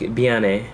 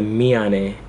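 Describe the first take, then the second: First: The word begins with a B-like sound. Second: The word begins with a clear M sound. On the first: "when Korean speakers say it, it sounds like a B" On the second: "it's actually written with an M"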